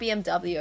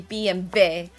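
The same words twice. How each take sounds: First: The last letter is said as 'double-u'. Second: The last letter is said as 'vee'. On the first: The speaker calls it wrong. "It's not B M W apparently" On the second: The speaker calls it right. "the W is a V in German"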